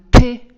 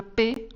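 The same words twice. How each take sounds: First: "P" with a strong, loud puff of air; aspirated P. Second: Said in the usual way. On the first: Shown as a demonstration. Lecturer showing students an aspirated stop, "P" heavily aspirated. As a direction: burst the "P" out hard, breath before the vowel. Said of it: "sorda aspirada". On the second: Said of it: "una oclusiva sorda".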